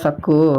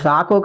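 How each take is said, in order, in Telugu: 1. మొదటి అచ్చు హ్రస్వం, k రెట్టింపు. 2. మొదటి అచ్చు దీర్ఘం, k ఒకే చిన్న హల్లు. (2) "అది సాకు కాదయ్యా"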